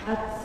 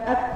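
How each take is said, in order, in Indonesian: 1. Bunyi t dilepas dengan hembusan napas yang kuat. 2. Bunyi t dilepas dengan hembusan napas yang ringan. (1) "terlalu banyak hembusan nafasnya" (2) "keluar suaranya atau suara hembusan nafasnya tapi nggak terlalu banyak"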